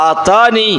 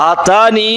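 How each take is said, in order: No difference in how they are said.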